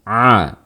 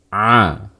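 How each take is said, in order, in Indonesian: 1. Suaranya keluar penuh lewat mulut. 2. Suaranya keluar penuh lewat mulut.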